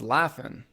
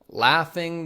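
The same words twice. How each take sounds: First: The final g sound is dropped. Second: The final g sound is pronounced.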